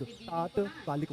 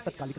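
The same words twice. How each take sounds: First: तात्कालिक slowly, with long "taat"; correct long first vowel. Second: तत्कालिक with short "tat"; softer, lower "tat-kaa-lik" for तत्कालिक; wrong short first vowel. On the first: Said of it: "तात्कालिक word होता है". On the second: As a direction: keep the opening of तत्कालिक brief. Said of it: "तत्कालिक नहीं". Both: Shown as a demonstration.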